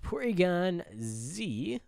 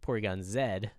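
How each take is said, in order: First: The letter is said zee, the American way. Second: The letter is said zed, the British way.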